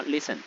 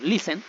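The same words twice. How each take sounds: First: "listen" stressed on its first syllable, LIS-en; correct stress on listen. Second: "listen" stressed wrongly on its last syllable, li-SEN. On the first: Teacher showing students where the accent goes, first-syllable stress on "listen". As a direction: hit the first syllable of "listen", let the end fall. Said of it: "la acentuación está acá". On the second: Teacher showing students how not to say it, misplaced stress on "listen". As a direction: say "listen" with the accent shifted onto the end. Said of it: "el acento de voz al momento de pronunciar".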